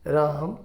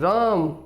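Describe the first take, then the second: First: The name is said softly and quietly. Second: The name is said very loudly. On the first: "softly धीरे से कहो, पहले तो" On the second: "फिर बहुत ज़ोर से"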